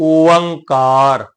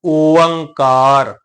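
No difference in how they are said.

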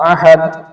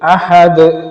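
First: The final consonant is cut short without a bounce. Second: The final consonant is released with an audible bounce. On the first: The speaker calls it wrong. "അങ്ങനെ പറ്റൂല" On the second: The speaker calls it right. "അഹദ് എന്ന് തന്നെ എന്ത് ചെയ്യണം ക്ലിയർ ആയിട്ട് കേൾക്കണം"

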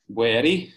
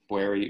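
First: It is said in an Italian accent. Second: It is said in a plain, ordinary accent.

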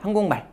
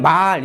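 First: The vowel in 말 is kept short. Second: The vowel in 말 is held long. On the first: "그러면 그냥 짧게 발음해버립니다" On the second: "말 이렇게 발음해야 되는데"

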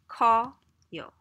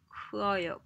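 First: The eu vowel drops, leaving one eo vowel. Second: Both the eu and eo vowels are pronounced. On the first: "You say it really fast... So it ends up being 커요" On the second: "Technically, it has to be 크어요"

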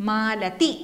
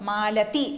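No difference in how they are said.

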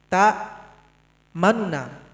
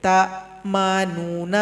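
First: The first nun syllable is brief and rushed. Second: The first nun syllable is fully pronounced. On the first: The speaker calls it right. "bisa kita tampilkan bunyinya tapi sepertiga saja" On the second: The speaker calls it wrong. "Tidak boleh ta manuna. Itu jelas dibaca"

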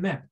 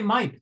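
First: The vowel is a short i sound. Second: The vowel is a long i sound. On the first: The speaker calls it right. "they said MIP" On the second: The speaker calls it wrong. "They didn't say MIP"

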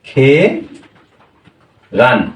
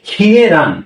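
First: The first syllable has no y glide: ke. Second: The first syllable has a y glide: kye. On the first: "তখন এর উচ্চারণ কি হবে" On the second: "খিয়ে রান এটা এর মূল উচ্চারণ হওয়া উচিত ছিল"

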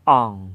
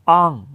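First: The syllable is said with a low tone. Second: The syllable is said with a falling tone. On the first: "อ่องเสียงเอก" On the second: "อ่องเสียงโทนะครับ"

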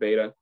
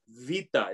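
First: The word begins with a B sound. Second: The word begins with a V sound. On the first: The speaker calls it wrong. "it starts with a beta" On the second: The speaker calls it right. "It's Vita, okay? Vita. It's not hard to say"

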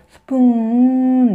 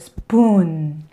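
First: The vowel is short and flat. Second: The vowel is long and gliding. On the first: The speaker calls it wrong. "이렇게 아니고" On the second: The speaker calls it right. "길게요. 약간 굴곡을 주셔야 되겠죠?"

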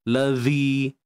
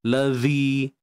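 First: The dh sound is pressed firmly against teeth. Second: The dh sound is pressed firmly against teeth.

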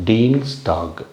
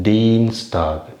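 No difference in how they are said.

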